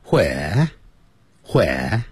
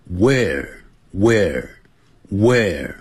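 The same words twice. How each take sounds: First: WHERE as "hweh", h puff and no r; breathed h, drop the r in where; British English where. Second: WHERE with a strongly curled final r, no h; slow, drawn-out where ending on r; American English where. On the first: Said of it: "英式英语念成". (英式发音，where带h音、不卷舌) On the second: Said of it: "美式英语很注重R的卷舌音". (美式发音，where卷舌r拉长) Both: Shown as a demonstration.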